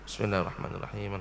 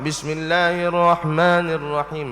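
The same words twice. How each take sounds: First: It is whispered softly. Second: It is said aloud, loudly.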